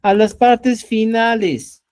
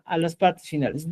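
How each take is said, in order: First: Slow and a little louder; teacher drilling the point about word endings, slow and firm; slow emphasis. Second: Said in the usual way. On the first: Shown as a demonstration. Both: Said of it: "¿ya?".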